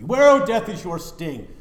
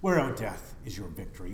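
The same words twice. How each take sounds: First: High, loud triumphant cry; ringing proclamation. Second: Said in the usual way. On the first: Shown as a demonstration. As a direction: hurl the question at death. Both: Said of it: "repeat with contrast".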